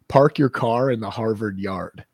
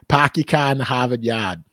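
First: It is spoken in a neutral American accent. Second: It is spoken in a Boston accent. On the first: "So that's how I would say it" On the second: "But a person from Boston would be like"

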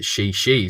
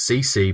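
First: Each syllable begins with a sh sound. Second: Each syllable begins with an s sound. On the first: The speaker calls it right. "but it's actually She-She" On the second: The speaker calls it wrong. "which I would think is C-C"

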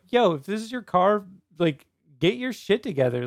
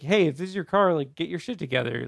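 First: It is said in an aggressive, angry tone. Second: It is said in a mild, calmer tone.

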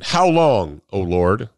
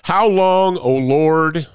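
First: Ends as a question on 'Lord'. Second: Flows on without a question ending at 'Lord'.

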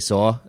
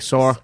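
First: It is said in a plain accent, no r. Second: It is said in a New York accent, r-like ending.

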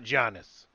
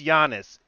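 First: The name starts with a hard J sound. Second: The name starts with a soft Y sound. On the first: The speaker calls it wrong. "let's drop the J from Giannis's name" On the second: The speaker calls it right. "it's a fucking soft Y"

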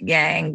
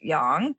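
First: It is said with an anglicized pronunciation. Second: It is said with the Chinese pronunciation. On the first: "Some people pronounce it yang" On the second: "but the Chinese pronounce it yang"

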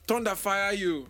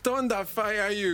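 First: It is said in a rough, forceful voice. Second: It is said in a restrained, posh voice.

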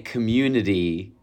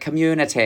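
First: It is said in an American Michigan accent. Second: It is said in a London-style British accent. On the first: "I say community" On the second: "I was doing an impression of how she says the word community"

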